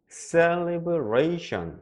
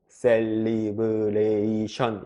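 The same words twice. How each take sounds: First: One syllable, 're', is said more strongly. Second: All syllables are said with equal strength. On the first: The speaker calls it right. "이게 영어 발음할 때 특징인데요" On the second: The speaker calls it wrong. "이렇게 평평하게 발음이 잘 안 돼요"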